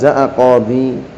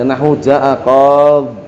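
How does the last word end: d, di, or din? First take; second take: di; d. First: The word ends with a di sound. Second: The word ends on a bare d sound. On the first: It is the pausal form keeping the final vowel. "Ya-nya ditetapkan masih ada, boleh" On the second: It is the pausal form with the ending dropped. "dibuang ya-nya"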